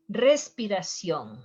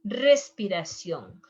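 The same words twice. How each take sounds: The two takes are said the same way.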